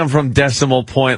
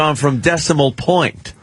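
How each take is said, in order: First: The stress falls on the word Decimal. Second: The stress falls on the word Point. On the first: The speaker calls it wrong. "you put the, the accent in the wrong spot" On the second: The speaker calls it right. "You got to accent the point part"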